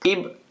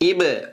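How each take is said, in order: First: The final consonant is cut off without any echo. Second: The final consonant is pressed with a bouncing echo. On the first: The speaker calls it wrong. "இப்படி படிக்காம அதை அழுத்தி படிக்கிறது" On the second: The speaker calls it right. "இது அப்படின்னு படிக்கணும்"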